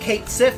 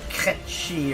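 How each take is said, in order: First: The name is read as two English words. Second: The name is said as one word, 'ketchy'. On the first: This is the anglicized reading of the spelling. The speaker calls it right. "I think Kate Sif sounds better" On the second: This is the Scottish Gaelic pronunciation. The speaker calls it wrong. "however you're supposed to pronounce it"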